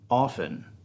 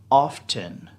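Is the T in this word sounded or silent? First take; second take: silent; sounded. First: The T is silent in the word. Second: The T is pronounced in the word. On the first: The speaker calls it right. "The T is silent" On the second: The speaker calls it wrong. "It is not often"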